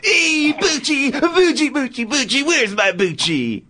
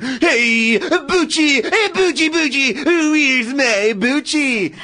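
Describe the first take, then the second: First: High, slow sing-song dog call; John Travolta impression. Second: High, sing-song calling for a dog; John Travolta impression. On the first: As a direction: coo for the dog, stretched out. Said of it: "And action". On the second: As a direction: coo the dog's name up high. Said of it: "It's a really good Travolta impression".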